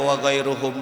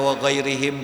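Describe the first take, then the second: First: The vowel after 'ghair' is a u sound. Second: The vowel after 'ghair' is an i sound. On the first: It refers back to the scholars. "Mau dibaca wa ghairuhum boleh" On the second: It refers back to our companions. "mau dibaca wa ghairihim juga boh boleh"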